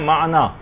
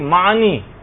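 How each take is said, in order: First: The word has its classical original pronunciation. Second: The word has its popular colloquial pronunciation. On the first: The speaker calls it right. "جبکہ اصل ہے" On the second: The speaker calls it wrong. "لوگ پڑھتے ہیں کہ"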